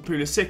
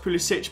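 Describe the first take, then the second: First: The name is said in its American pronunciation. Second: The name is said in its original, non-American pronunciation. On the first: This is how the name is said now. "go for an American pronunciation of the name and has gone for Pulisic" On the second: This is how the name was said before the change. "originally, when he was younger, it's pronounced Pulisic"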